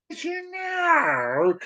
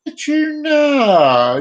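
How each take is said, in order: First: High drawn-out title call; hammed-up announcer. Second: Long drawn-out title call; hammed-up announcer. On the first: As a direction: croon the title like a show host. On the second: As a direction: sing out the title like a show host. Announcing show segment title, drawn out.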